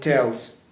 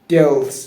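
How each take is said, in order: First: The first sound is a T sound. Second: The first sound is a D sound. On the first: The speaker calls it right. "If you pronounce the T sound correctly" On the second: The speaker calls it wrong. "if you change all of the T sound to D"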